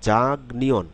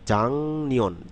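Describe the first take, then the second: First: The first syllable ends in a k sound. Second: The first syllable ends in an ng sound. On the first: "খেয়াল করুন জাগ নিয়ন" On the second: "যখন শব্দে বলবো তখন কি হবে জাং নিয়ন"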